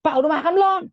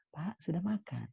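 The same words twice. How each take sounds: First: Very high, loud shouted question; snapping yell. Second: Soft, slightly high, tender voice; gentle, respectful asking. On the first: Child shouting at father whether he has eaten, harsh yell. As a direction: yell it at dad, as the wrong way. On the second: Child gently asking father whether he has eaten, softly. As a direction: ask it softly and politely. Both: Shown as a demonstration. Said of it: "Jangan gitu".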